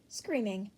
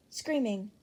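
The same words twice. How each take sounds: The two takes are said the same way.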